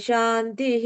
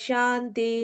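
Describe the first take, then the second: The two takes are said the same way.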